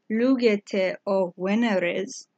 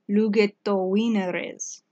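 First: Each word's vowels are pronounced separately. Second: Final vowels merge into the following word.

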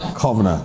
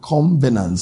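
First: No n sound is in the first syllable. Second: An extra n sound is in the first syllable. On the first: The speaker calls it right. "So it's covenant. Covenant. C-O-V, no N there" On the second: The speaker calls it wrong. "some people call it covenants, but there is no N in it"

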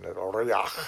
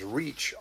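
First: The name ends in a k-like sound. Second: The name ends in a ch sound. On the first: The speaker calls it right. "this was a Highland pronunciation, Reok" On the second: The speaker calls it wrong. "they think, understandably, that his name is Reach"

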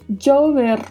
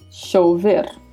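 First: The first consonant sounds like English 'j'. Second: The first consonant sounds like English 'sh'. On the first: "som de DJ" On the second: "som de X"

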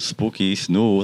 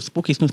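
First: It is said in a stern, serious tone. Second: It is said in a light, casual tone.

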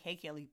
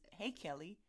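First: It is said flatly, like a plain statement. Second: It is said with excitement, like an exclamation.

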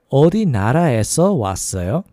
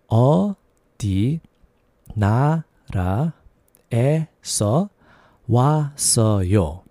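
First: It is said at a faster pace. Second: It is said at a slower pace.

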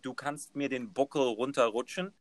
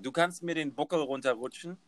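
First: It is said a little more slowly. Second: It is said at normal speed.

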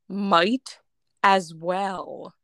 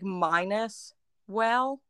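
First: The first word ends with a clear t sound. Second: The first word sounds like the word minus. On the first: The speaker calls it right. "the correct way is might as well" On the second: The speaker calls it wrong. "There's another one that people say"

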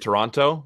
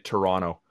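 First: The final T sound is clearly pronounced. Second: The final T sound is dropped. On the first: "If we don't say Toronto" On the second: "We drop the last T of Toronto"

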